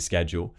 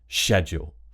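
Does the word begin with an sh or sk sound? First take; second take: sk; sh. First: The word begins with an sk sound. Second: The word begins with an sh sound. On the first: "it's not a problem if you say schedule" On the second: "sh, sh, schedule"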